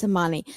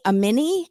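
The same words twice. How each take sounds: First: "Amani" said a-MAH-nee, with an open ah in the middle; correct name Amani. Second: "Amini" said a-MEE-nee, with a short ee in the middle; Amini pronounced Amini. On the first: Host correcting the name to Amani, said a-MAH-nee. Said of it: "her name is Amani". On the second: Podcaster mimicking the husband's mispronunciation, a-MEE-nee. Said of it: "he calls her Amini". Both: Shown as a demonstration.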